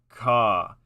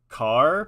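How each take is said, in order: First: The final R sound is dropped. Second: The final R sound is clearly pronounced.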